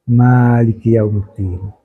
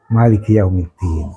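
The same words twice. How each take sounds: First: The first vowel of Maliki is long. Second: The first vowel of Maliki is short. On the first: "pakai isbat alif" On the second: "membaca tanpa alif"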